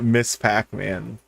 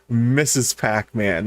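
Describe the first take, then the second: First: The first word is said as 'miss'. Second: The first word is said as 'missus'. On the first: The speaker calls it right. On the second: The speaker calls it wrong. "they pronounce it"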